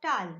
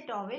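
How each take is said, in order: First: "towel." said the right way, the model the teacher wants copied; correct pronunciation. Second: "towel" said the wrong way, as the sound the teacher forbids; wrong pronunciation. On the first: Teacher correcting students' pronunciation, model "towel.". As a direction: give the corrected "towel." as the example. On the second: Teacher demonstrating the students' mistake, wrong "towel". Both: Shown as a demonstration. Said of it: "don't say towel".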